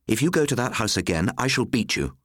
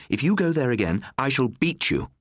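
First: A firm, measured warning to her son; stern threat. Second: Higher and harsher, hammering it home; rising threat. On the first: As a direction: lay down the law, voice raised. Mother threatens son Nicholas. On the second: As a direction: repeat the warning with more force. Mother repeats threat to son. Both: A narrator's reading.

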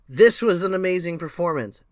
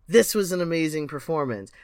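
First: The rave line pushed out louder and more excited; louder mock rave. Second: Said in the usual way. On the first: Repeating a performance rave with louder, more excited praise. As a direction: oversell the praise, a little louder.

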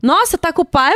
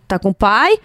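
First: Higher, incredulous question; mock surprise. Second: Said in the usual way. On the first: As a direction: echo it back as if astonished. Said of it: "porque ele". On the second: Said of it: "Daí eu".

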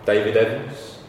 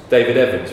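First: "David Evans" with the end rising into a question; tentative questioning. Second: "David Evans" firmer, falling at the end; confirming. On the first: Friend bluffing a name to the guard, "David Evans" tentative and rising. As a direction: offer "David Evans" as an unsure guess. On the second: Guard reading the name off the list, "David Evans" confirming and falling. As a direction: state "David Evans" as a found answer. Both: Retold or imitated.

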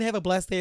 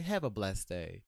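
First: High, loud pointed farewell; loud mock-kind kiss-off; barbed fake blessing. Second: Low, slow syrupy farewell; slow, controlled sweet dismissal; smiling passive aggression. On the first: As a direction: pitch it up and make the blessing an insult. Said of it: "is like saying fuck you". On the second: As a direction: draw it out low through a smile. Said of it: "like, with a smile". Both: Shown as a demonstration.

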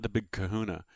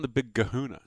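First: "Kahuna" pronounced with its usual hard K sound. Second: "Kahuna" pronounced with a hard G as "Gahuna". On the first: Host contrasting the nickname, "Kahuna" said with a K. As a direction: start "Kahuna" on a crisp K, not a G. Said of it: "not the Big Kahuna". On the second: Host explaining Goodell's nickname, "Kahuna" said as "Gahuna". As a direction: start "Kahuna" on a voiced G, not a K. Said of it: "'cause it's Goodell with a G". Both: Shown as a demonstration.

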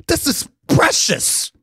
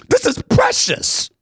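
First: Said in the usual way. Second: Much higher, slow and pleading; higher emotional repeat. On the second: Real, not acted. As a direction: push it up high as the feeling swells. Repeats line, rising emotion.

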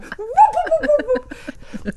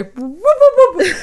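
First: Very high whoops through a laugh; fast forward sound, laughing. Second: High, loud whooping noise; fast forward sound. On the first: Repeating her fast-forward noise, higher, with a laugh. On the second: Her own fast-forward noise, whooped high and loud. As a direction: whoop like a tape zipping ahead. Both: Shown as a demonstration. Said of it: "that's my fast forward sound".

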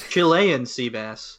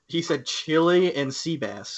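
First: "Chilean" run together as one word, said slowly; low, slow "Chilean sea bass", naming one dish. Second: "Chile and" split into chili, then "and"; "Chile and sea bass" as two separate foods; chili, separate words. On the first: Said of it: "he said Chile and sea bass". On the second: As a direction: slowly say "Chile and" like chili plus a second dish. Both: Shown as a demonstration.

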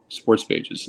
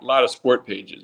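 First: "sports" fixed with a clear final s, half-whispered; "sports" said with the plural s, correcting "sport"; corrected word. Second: Said in the usual way. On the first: Real, not acted.

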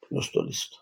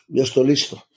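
First: Whispered. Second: Said in the usual way. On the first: Retold or imitated. To himself, whispering he is ready for the shaman. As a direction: repeat it in a bare whisper.

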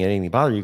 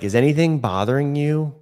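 First: Said in the usual way. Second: Brighter, higher friendly ask; polite chairside check-in; sample patient question. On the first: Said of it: "Instead of something is saying". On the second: Shown as a demonstration. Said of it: "So we say things like".

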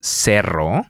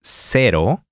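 First: Cerro with a strong trilled double r; Cerro, roll the rr firmly. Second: Cero with one quick tapped r; Cero, tap the r once lightly; single flap r. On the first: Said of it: "the double R has a stronger sound". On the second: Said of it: "To illustrate this". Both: Shown as a demonstration.

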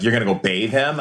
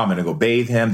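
First: "You're gonna go bathe him?" as a question rising on "him"; retold doubting question, "him" turned upward; retold questioning echo. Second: Said in the usual way. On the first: Friends question the plan back.

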